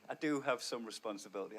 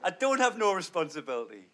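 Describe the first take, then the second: First: "do" stressed, said much softer; quiet correction with weight on "do"; self-correction. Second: "have" leaned on in a slangy double negative. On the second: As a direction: say "I don't have no" carelessly, leaning on "have". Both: Shown as a demonstration. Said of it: "I fucking love a double negative".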